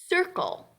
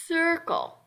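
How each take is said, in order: The two takes are said the same way.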